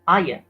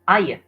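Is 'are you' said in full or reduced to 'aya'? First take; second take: reduced; reduced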